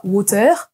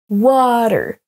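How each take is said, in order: First: "water" French-style, weight on the last syllable "TEUR"; wrong final stress. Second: "water" as WA-ter, first syllable long and strong; first-syllable stress. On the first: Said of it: "On ne dit pas". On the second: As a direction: hit the WA in "water", let the end fall. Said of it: "accentués sur la première syllabe". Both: Shown as a demonstration.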